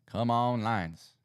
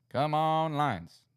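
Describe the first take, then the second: First: Loud eager urging, first push; rooting for the team out loud; calling on the Lions to pull through; cheering on the Lions. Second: Higher, louder plea to the team; really rooting now, voice up high; begging the Lions to come through; louder cheering. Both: Real, not acted.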